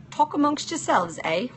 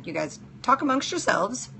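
First: Playful put-on British accent with a higher lilt; hammed-up British accent, higher; mock British accent. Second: Said in the usual way. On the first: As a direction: toss it off in a jokey British accent. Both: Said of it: "enjoy my British accent".

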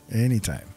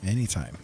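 No difference in how they are said.

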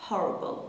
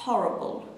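First: Said in the usual way. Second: Horrible in a British accent, slow; British pronunciation. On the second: Shown as a demonstration. (تلفظ بریتیش) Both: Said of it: "یا تلفظ بریتیشش horrible".

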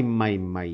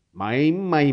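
First: Said in the usual way. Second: Louder exasperated măi, măi with a falling tune; fed-up old man grumbling. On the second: A narrator's reading. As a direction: scold it like a stubborn mule. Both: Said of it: "bombăni Zeb".

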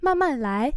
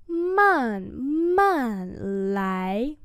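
First: Said in the usual way. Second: Man man lái with a pause after each syllable; slow demonstration. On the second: Shown as a demonstration. Teacher repeats "Man man lái" for learners, slowly. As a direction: stretch and separate Man man lái.

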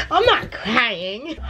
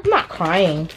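First: Laughing through tears. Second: Said in the usual way. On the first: Real, not acted. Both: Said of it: "I'm gonna cry again".

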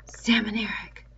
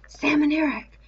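First: Whispered call to the twins; gentle whisper; called very gently. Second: Higher, urgent call; urgent raised call; louder call. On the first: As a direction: breathe their names out gently so no one else hears. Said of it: "He called out very gently". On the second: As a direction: call the names up to them, raised and pressing. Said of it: "he must speak louder". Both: Acted.

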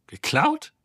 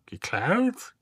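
First: Geklaut? flung out much higher and louder in disbelief; shocked high cry. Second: Robot apes the question with disdain; mocking echo. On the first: Acted. Ford cries out at news the ship was stolen, shocked. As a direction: gasp it out, stunned. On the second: Marvin mockingly echoes Ford's question, sneering imitation. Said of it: "äffte Marvin sie nach".

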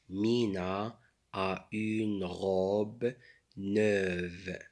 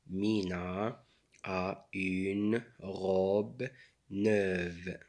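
Both takes have the same delivery.

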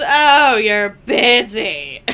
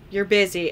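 First: Loud, drawn-out mock complaint; mocking imitation. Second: Said in the usual way. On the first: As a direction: tease him loudly, stretching it out. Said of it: "everything that he's".

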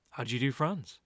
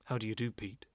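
First: Said in the usual way. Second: A lightly voiced German accent, lower and softer; German-accented greeting. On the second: Gallery owner Franz greets Pete, light German accent. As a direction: greet him stiffly in a mild German accent. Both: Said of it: "a very strong German accent".

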